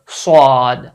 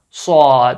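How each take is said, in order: No difference in how they are said.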